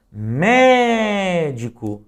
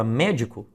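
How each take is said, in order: First: "médico" loud and higher, MÉ drawn out very long; sílaba tônica prolongada. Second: Said in the usual way. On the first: Shown as a demonstration. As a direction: call out "médico", holding the first syllable. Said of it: "note que o mé é a sílaba que mais se destaca". ("médico" em voz alta, com o "mé" bem alongado) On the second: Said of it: "prolongasse a pronúncia da palavra".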